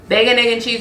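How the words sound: The three items run together as one word. The speaker is from New York. The speaker calls it right. "is one word"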